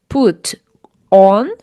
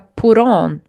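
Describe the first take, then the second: First: The t is clear, words said separately. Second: The t becomes a flap linking into on. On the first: "junte put on" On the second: "fica put on"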